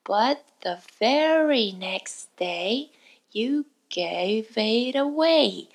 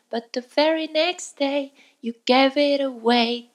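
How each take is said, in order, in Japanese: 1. このフレーズはゆっくり丁寧に言われています。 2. このフレーズは速く言われています。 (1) "最初はゆっくりと丁寧に" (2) "徐々に早くしていって"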